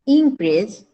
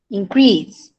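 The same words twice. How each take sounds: First: "Increase" stressed on IN; noun stress. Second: "increase" stressed on CREASE; verb stress. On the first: Teacher modelling for student, first-syllable stress on "Increase". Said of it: "On the first syllable". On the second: Teacher modelling for student, second-syllable stress on "increase". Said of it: "On the second syllable". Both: Shown as a demonstration.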